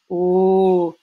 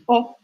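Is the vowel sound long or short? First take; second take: long; short. First: The vowel is held long. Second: The vowel is cut short. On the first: "Quand il y a un son long, on va vraiment entendre o" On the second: "il y a les sons courts. O"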